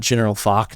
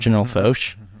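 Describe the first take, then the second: First: The name ends with a hard k sound. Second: The name ends with a soft sh sound. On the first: "I thought it was pronounced uh" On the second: "not mm-hmm"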